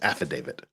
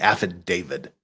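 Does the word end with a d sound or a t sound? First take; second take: t sound; d sound. First: The word ends with a t sound. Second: The word ends with a d sound. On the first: The speaker calls it right. "It's an affidavit" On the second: The speaker calls it wrong. "People who who say affidavit instead of"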